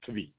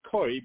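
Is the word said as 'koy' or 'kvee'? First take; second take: kvee; koy. First: The word is said as kvee, with v. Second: The word is said as koy, without v. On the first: This is the pronunciation scholars consider proper. "in Lomdish circles they claim that the proper pronunciation is kvi" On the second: This is the common pronunciation. "many people pronounce it koi"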